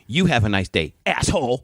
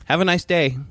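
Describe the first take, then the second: First: Imitated snide comeback, stressed YOU; retold bitchy retort. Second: Higher, courteous retold farewell; polite send-off. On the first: Rude customer to the store clerk, imitated bitchy retort. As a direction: throw the farewell back with mock venom. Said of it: "I can hear her bitching at the guy". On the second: Store clerk to a complaining customer, retold polite send-off. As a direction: imitate a clerk's civil, lifted goodbye. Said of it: "Just like that".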